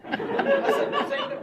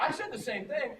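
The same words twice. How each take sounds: First: Slow, high, loud, laughing Walken line; drawn-out mock Walken. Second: Said in the usual way. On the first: Shown as a demonstration. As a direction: stretch each word like Walken.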